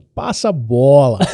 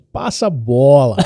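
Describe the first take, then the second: First: It is said in an exaggerated Brazilian accent. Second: It is said in an exaggerated Brazilian accent.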